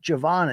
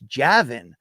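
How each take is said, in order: First: The name ends with a 'von' sound. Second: The name ends with a 'vin' sound. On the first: The speaker calls it wrong. "It's not Javon" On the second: The speaker calls it right. "it's Javin"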